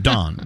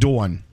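First: It is said with a Texas accent. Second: It is said with a New York accent.

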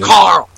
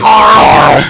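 First: It is said in the speaker's plain voice. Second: It imitates the dude from Walking Dead.

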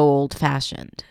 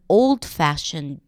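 First: The stress falls on 'fashioned'. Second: The stress falls on 'old'. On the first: It describes the noun after a verb, as a predicate. "Stress on fashioned" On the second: It comes before the noun, as an adjective. "Have you noticed what happened to the stress here?"

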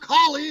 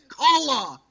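First: The syllable ends in an 'ee' sound, like collie. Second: The syllable ends in an 'uh' sound, like calla. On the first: The speaker calls it wrong. "he calls it cauliflower, like Lassie. It's not Collie" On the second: The speaker calls it right. "it's Calla"

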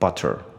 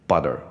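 First: Both the T and the final R are strong. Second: The T sounds like a D, with an R. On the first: "学生通常念butter" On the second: "美式应该要念butter"

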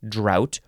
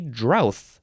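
First: The word ends with a plain 't' sound. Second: The word ends with a 'th' sound. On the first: "It's D-R-O-U-G-H-T, drought" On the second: "you can spell it D-R-O-U-T-H, and then you would say drowth"

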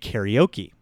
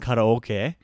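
First: The word is said with American English pronunciation. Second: The word is said with Japanese pronunciation. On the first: The speaker calls it wrong. "they'll say karaoke" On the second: The speaker calls it right. "instead of saying karaoke"

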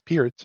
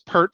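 First: The name rhymes with the word beer. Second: The name rhymes with the word hurt. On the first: This is the pronunciation now known to be correct. The speaker calls it right. "we now know that it's Peart" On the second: This is the old, mistaken pronunciation. The speaker calls it wrong. "maybe they heard it mispronounced, because we all thought it was Pert for a long time"

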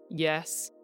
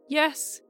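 First: The word is said on a low pitch. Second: The word is said on a high pitch. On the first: "a low" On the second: "a high"

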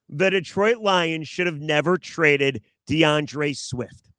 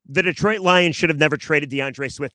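First: It is said slowly and deliberately. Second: It is said at a normal pace.

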